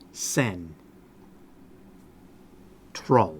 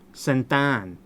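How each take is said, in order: First: The R sound is kept after the T. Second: The R sound is left out of the word. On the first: The speaker calls it right. "The T R are together in the second syllable" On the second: The speaker calls it wrong. "But the R disappears"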